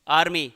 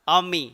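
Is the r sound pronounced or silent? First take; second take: pronounced; silent. First: The r sound is clearly pronounced. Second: The r sound is left silent. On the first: The speaker calls it wrong. "ना कि आर्मी। आर्मी बोलेंगे तो रे का उच्चारण होगा" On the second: The speaker calls it right. "आर क्या आता है इसमें? साइलेंट।"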